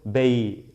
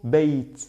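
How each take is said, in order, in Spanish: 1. La palabra termina en vocal, sin t final. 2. La palabra termina en un sonido t claro. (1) "si por ejemplo voy a ignorar esta... Sería solo bey" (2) "Aquí digo beit"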